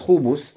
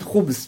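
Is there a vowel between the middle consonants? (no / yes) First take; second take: yes; no. First: A short u vowel follows the b sound. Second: No vowel follows the b sound. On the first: "с дхаммой" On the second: "то есть с сукуном"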